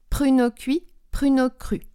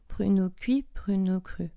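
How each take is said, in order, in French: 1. Les consonnes sont nettes, explosives et énergiques. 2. Les consonnes sont douces, molles et peu articulées. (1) "Plutôt quelque chose qui est explosif, qui est plutôt présent" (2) "Et pas"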